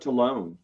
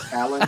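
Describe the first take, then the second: First: The name ends with a long 'lone' sound. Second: The name ends with a short 'lun' sound. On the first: The speaker calls it wrong. "I called him Talone instead" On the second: The speaker calls it right. "of Talon"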